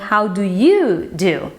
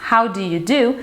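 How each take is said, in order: First: The word you carries strong stress. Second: The word you carries no special stress. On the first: This is the reply returning the greeting. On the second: This is the greeting question.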